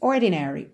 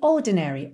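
First: The R after the first vowel is clearly pronounced. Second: The R is silent and the first vowel lengthened. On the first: "Num sotaque mais pro americano, nós teríamos" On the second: "ela soa exatamente assim, ... Porque o R não está enrolado"

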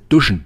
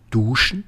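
First: The u in duschen is short. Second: The u in Duschen is long.

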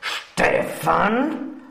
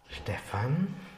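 First: It is said in an angry tone. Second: It is said in a gentle tone.

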